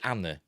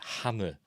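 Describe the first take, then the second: First: The starting H sound is dropped. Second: The starting H sound is pronounced. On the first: "do you drop the H" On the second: "or is it Hannah"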